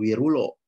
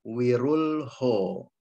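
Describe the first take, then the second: First: There is no h sound after the l. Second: An h sound follows the l. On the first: The speaker calls it wrong. "bukan wirulo" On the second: The speaker calls it right.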